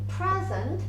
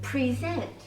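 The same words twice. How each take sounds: First: The stress is on the first syllable. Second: The stress is on the second syllable.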